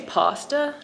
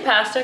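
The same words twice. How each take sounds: First: It is said in a British-sounding, fancy accent. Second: It is said in a Canadian accent.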